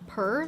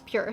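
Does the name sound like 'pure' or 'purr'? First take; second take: purr; pure. First: The name sounds like a cat's purr. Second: The name sounds like the word pure. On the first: The speaker calls it wrong. "I totally thought this brand was pronounced like purr, like kitty cat meow" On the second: The speaker calls it right. "apparently it's Pure"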